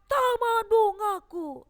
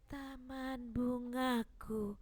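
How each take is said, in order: First: The phrase is spoken very loudly. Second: The phrase is spoken very softly. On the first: It sounds as if the reader is angry. "Jangan dia terlalu keras. ... itu tidak bagus" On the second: Listeners cannot hear the poem. "Atau pelan"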